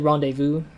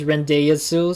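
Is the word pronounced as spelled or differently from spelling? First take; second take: differently; as spelled. First: The word is pronounced unlike its spelling. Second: The word is pronounced the way it is spelled. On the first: The speaker calls it right. "but it was actually Rendezvous. That's how they pronounce it" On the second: The speaker calls it wrong. "I thought it was Rendezvous or something"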